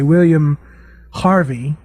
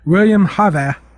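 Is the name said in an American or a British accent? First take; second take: American; British. First: The name is said in an American accent. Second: The name is said in a British accent. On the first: "in American English we would, we would say" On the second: "had a British announcer, so he was like"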